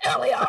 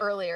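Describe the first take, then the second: First: "earlier" loud and choked, Glaswegian style; Glaswegian accent. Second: Said in the usual way. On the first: Shown as a demonstration. Showing how Glaswegians sound, in a choking Glaswegian accent. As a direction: punch out "earlier" higher and much louder, in mock Glaswegian. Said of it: "that's how Glaswegian sound to me". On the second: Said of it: "Instead of".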